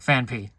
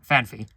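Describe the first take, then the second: First: The middle sound is a separate p sound. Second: The middle sound is a smooth f sound. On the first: The speaker has to stop and think to say it. "you have to be like Phanpy. You have to stop and think" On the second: It sounds more natural and flows faster. "people pronounce it fan fan Phanpy because it just sounds more natural. It flows faster"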